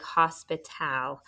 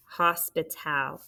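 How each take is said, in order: First: Hospital with the last syllable said as a clear tal, not a schwa; full tal ending. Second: Said in the usual way. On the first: Shown as a demonstration. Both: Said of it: "It's T A L".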